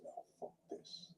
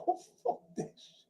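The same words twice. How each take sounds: First: Muttered quote. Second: Laughing quote. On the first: Retelling him quitting the Air Force. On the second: Retelling a man quitting the army. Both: Retold or imitated.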